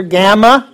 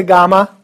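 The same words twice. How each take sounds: First: Gamma as "GAM-uh", A as in cat; short-A gamma. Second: Gamma as "GAH-muh"; broad-A gamma. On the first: Teacher quotes the variant students will hear, short-A gamma. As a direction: say gamma with a flat English "a" as in ham. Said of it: "You'll hear gamma". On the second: Teacher gives own usual version, broad-A gamma. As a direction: say gamma with an "ah" as in father. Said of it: "I typically say gamma". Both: Shown as a demonstration.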